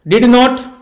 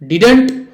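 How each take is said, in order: First: Two separate full words with a clear t. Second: One contracted word with two syllables. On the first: "डिड नॉट कहो तो भी" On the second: "डिडेंट कहो तो भी"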